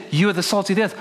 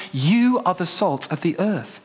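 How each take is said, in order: First: "the" pushed hard; stress on THE. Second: "You" pushed first; stress on YOU. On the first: Preacher contrasting the misread, stress on "the". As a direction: lean on "the" in "the salt". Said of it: "that he said". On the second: Preacher giving the right reading, stress on "You". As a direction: hit "You" in "You are the salt". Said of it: "What he said was". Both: Shown as a demonstration.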